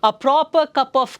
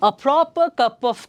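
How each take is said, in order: No difference in how they are said.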